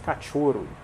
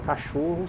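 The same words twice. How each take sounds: First: The 'ch' is a sharp 'tch' sound. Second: The 'ch' is a soft 'sh' sound.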